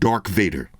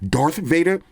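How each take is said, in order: First: The first word ends with a k sound. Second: The first word ends with a th sound. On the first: The speaker calls it wrong. "I've been saying Dark Vader" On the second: The speaker calls it right. "I didn't know it was Darth, like D A R T H"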